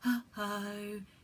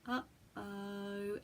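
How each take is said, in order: First: It is said with a very breathy voice. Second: It is said in a smooth, connected voice.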